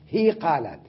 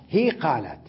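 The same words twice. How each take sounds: Both takes have the same delivery.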